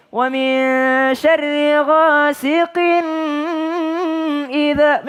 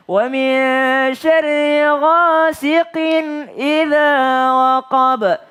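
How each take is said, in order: First: Sudais. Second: High melodic chant, GHASIQIN cut straight into IDZA; no humming. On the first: Retold or imitated. Teacher mimicking reciters who copy a famous qari, high chant. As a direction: show off a high chanting voice, droning on GHASIQIN. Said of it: "mirip-miripin sama Sudais". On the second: Shown as a demonstration. Teacher correcting the chant, ghasiqin without hum. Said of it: "jangan berdengung di sini".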